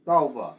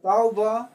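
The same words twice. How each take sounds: First: Tauba dropping low in pitch; tauba, sliding down to a low finish; falling tone on tauba. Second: Tauba with the pitch climbing at the end; Tauba, ending on a lift; rising tone on Tauba. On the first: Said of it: "diphthong is falling tone". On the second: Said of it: "tau is diphthong rising tone". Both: Shown as a demonstration.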